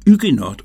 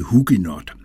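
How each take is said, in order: First: The word starts without an H sound. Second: The word starts with an audible H sound. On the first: The speaker calls it right. "derfor er H'et stumt og vil så hedde Huguenot" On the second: The speaker calls it wrong. "og ikke Huguenot"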